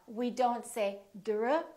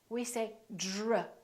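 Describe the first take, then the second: First: The cluster has a plain, crisp d sound. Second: The cluster sounds soft, like j. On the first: The speaker calls it wrong. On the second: The speaker calls it right.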